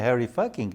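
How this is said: The surname is pronounced the English way.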